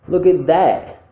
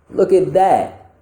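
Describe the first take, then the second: Both takes have the same delivery.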